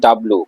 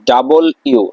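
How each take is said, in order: First: The letter name is squeezed into two syllables. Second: The letter name is said fully as three syllables. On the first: The speaker calls it wrong. "Not ডাব্লু" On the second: The speaker calls it right.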